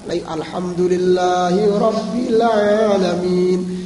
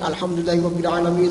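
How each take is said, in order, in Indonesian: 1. Dibaca dengan lambat dan jelas, lalu berhenti. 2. Dibaca dengan cepat, terus berjalan tanpa berhenti. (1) "yang baik adalah jelas ... Satu kata dan jelas" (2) "kadang dibaca secara cepat ... satu napas"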